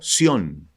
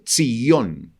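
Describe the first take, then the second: First: The name is said with Spanish pronunciation. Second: The name is said with Hebrew pronunciation. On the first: "lo transliteran al español como Sión" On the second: "así es la pronunciación del, en hebreo"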